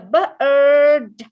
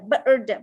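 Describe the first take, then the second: First: It is said slowly, sound by sound. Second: It is said quickly as one blended word. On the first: "when you decode each sounds" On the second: "when you say it faster"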